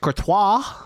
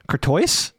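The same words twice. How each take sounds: First: The name is said with a French pronunciation. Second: The name is said with an anglicized pronunciation. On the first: The speaker calls it right. "he's Belgian, so it has a French pronunciation" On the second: The speaker calls it wrong.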